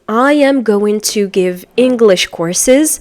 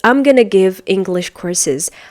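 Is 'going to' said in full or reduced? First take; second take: full; reduced. First: Each word is pronounced fully and separately. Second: The words blend into a reduced 'I'm gonna'. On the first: "instead of saying" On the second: "the American person is going to say"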